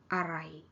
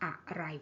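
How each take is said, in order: First: The first syllable is reduced and unstressed. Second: The first syllable is full and stressed. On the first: The speaker calls it right. "a kind of reduced and unstressed" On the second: The speaker calls it wrong. "we won't say a-rai. We won't stress the syllable a"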